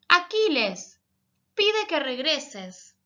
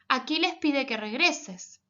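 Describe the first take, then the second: First: There is a pause after "Aquiles". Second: It flows without a pause after "Aquiles".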